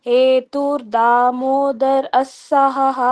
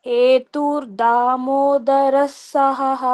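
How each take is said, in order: The two takes are said the same way.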